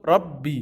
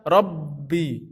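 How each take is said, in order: First: The double b sound is said short. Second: The double b sound is held long. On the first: The speaker calls it right. "tapi cukup Rabbi" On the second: The speaker calls it wrong. "tidak perlu dibaca Rabbi"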